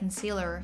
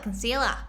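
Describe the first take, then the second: First: American accent with a strong final R sound. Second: Australian accent with the final R dropped. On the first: "if you're American, you'd say it like concealer because you really focus on the R's" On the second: "But Australia's like concealer"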